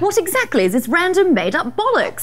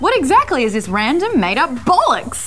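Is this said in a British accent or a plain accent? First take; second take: British; plain. First: It is said in a put-on British accent. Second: It is said in the speaker's normal accent.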